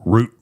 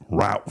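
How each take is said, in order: First: Route pronounced "root", rhyming with boot. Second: Route pronounced "rout", rhyming with out. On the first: Correcting himself while retelling dad's drink order, route said as root. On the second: Quoting how dad ordered a drink, Route said as rout. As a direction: say Route with an ow vowel, like shout. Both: Shown as a demonstration. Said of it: "He called it Route".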